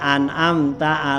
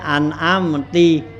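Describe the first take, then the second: First: The word ends with an a vowel. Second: The word ends with an i vowel.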